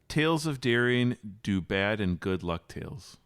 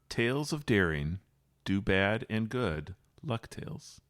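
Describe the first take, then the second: First: It is read plainly, like normal speech. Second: It follows the rhythm of the song.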